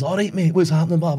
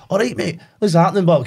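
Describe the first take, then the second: First: Lightly done cheery Scottish greeting; a light chirpy Scottish hello; a hint of broad Scottish. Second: Lightly done chirpy Scottish greeting; a hint of broad Scottish. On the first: The shanty singer greets the player in light Scottish. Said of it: "and he's". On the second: A light Scottish voice for the game's shanty singer. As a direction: greet him with a cheery Scottish lilt. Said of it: "he's like".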